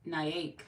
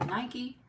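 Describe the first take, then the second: First: Nyack with no ee at the end; sounding out a name. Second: Nike in two syllables, NY-kee; sounding out a name. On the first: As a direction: say Nyack closing on the k. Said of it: "Gotta say it". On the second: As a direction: say Nike with an ee ending, pitched up. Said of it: "Nike is one syllable". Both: Shown as a demonstration.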